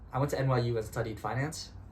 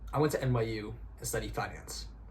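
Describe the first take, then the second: First: The voice rises at the end like a question. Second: The voice falls at the end like a statement. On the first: The speaker sounds uncertain. The speaker calls it wrong. "It's kind of a question" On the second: The speaker sounds certain. The speaker calls it right. "It's much more of a statement, and you end on a period"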